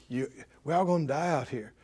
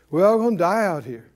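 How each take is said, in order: First: Low, soft, fast tempting murmur; soft sly whisper. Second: Said in the usual way. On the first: Acted. Devil whispering fear to the people, low and soft.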